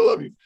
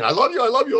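First: Said in the usual way. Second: High, eager I love you; lovingly eager, pitch lifted high; gushing affection. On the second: Retold or imitated. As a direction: pour the words out with delight. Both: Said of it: "that's me saying".

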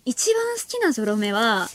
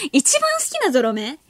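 First: 一番好きなゾロ目は、 slower with a falling tune; settling answer. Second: 一番好きなゾロ目？ asked back with a rising tune; echoing question. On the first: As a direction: start the answer slowly and let it fall. (ゆっくり下げ調子で答え始める) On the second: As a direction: repeat the listener's question with a rise on 番. (問い返すように上げ調子で) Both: Shown as a demonstration.

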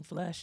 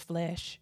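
First: "flush" with an uh vowel; flesh said as flush. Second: Said in the usual way. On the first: Shown as a demonstration. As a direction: say "flush" where flesh is meant. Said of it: "saying flush instead of flesh". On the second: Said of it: "instead of flesh".

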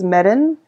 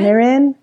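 First: Mirren with a rolled R; Scottish Mirren, tapped R in the middle; Scottish pronunciation. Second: Mirren tried in a Canadian accent, higher; unpractised Canadian accent on Mirren; attempted Canadian accent. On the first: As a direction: roll the R in Mirren. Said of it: "I roll my R's a lot more". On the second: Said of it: "not got the Canadian accent down". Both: Shown as a demonstration.

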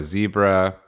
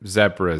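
First: "zebra" with a long ee, ZEE-bra; American pronunciation. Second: "zebra" with a short e, ZEB-ra; British pronunciation. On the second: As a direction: say "zebra" the British way, to rhyme with Debra. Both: Shown as a demonstration. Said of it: "confused by my pronunciation".

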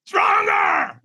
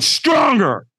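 First: High, full-throated scream of Stronger!. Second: A firm coaching push on Stronger; firm command. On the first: Trainer screaming at the hesitant firewalker, a high yell. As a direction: yell it to jolt him into a peak state. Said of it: "He screams at me". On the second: Trainer pushing the walker, a firm command. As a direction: demand more, firmly. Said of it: "And he went". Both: Retold or imitated.

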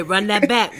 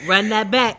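First: Excited. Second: Louder, hyped repeat; loud DJ rewind call. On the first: Real, not acted. Repeating DJ call to rewind. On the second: Acted.

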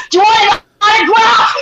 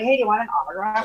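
First: High, very loud taunting offer; mock-eager shout. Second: Said in the usual way. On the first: Guest taunts aggro people with autograph offer, shouting. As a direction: shout it teasingly through laughter. Acts taunting the angry man.

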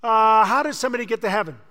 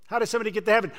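First: Quick, louder asking of the question; louder fast question. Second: Said in the usual way. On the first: Shown as a demonstration. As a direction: fire "how" off fast and loud.

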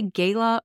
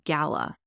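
First: First vowel of "gala" as in day. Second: "gala" said with a short A, GAL-uh; first vowel of "gala" as in cat; GAL-a pronunciation. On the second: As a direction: say "gala" to rhyme its start with pal. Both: Shown as a demonstration. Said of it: "the main question is".

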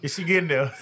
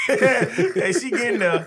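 First: Said in the usual way. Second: Slow words through real laughter; laughing. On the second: Real, not acted. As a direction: say it while cracking up. Cracking up while teasing.

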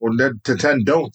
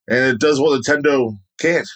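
First: "Nintendo don't" run together like Nintendon't; "Nintendo don't" fused into one word; corrected slogan. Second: "Nintendo can't" said as two plain words; the slip "Nintendo can't", stress on can't; misquoted slogan. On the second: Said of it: "Got the quote all fucked up there". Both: Real, not acted.

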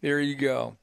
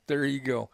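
The two takes are said the same way.

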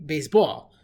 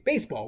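First: "baseball" with the weight on BALL; end-stressed "baseball", second syllable punched; stress on last syllable. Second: "baseball" with the weight on BASE; front-stressed "baseball"; stress on first syllable. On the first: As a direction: say "baseball" Israeli-style, base-BALL. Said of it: "put the dagesh on the, on the end of it". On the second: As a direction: say "baseball" the English way, BASE-ball. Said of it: "which is milael. That's the way you speak English". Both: Shown as a demonstration.

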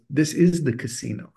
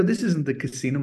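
First: Firm retold correction, IS lifted higher; stress on IS. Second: Put-on slightly higher, puzzled kid's objection; retold protest, pitched up; mock protest. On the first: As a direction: lean on "is" to contradict. Dad insists, correcting the boy. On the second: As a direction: object like a confused child. Boy protests to his dad.

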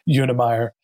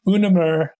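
First: Unemeyer said the English way, ending like "meyer"; English pronunciation. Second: Unemer imitated the Swedish way, short last syllable; Swedish pronunciation. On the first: Retold or imitated. Host repeating guest's surname back, English pronunciation. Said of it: "or in English". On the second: Host repeating guest's surname back, Swedish pronunciation. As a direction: copy the Swedish saying of Unemer. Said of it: "In Swedish, I pronounce it".

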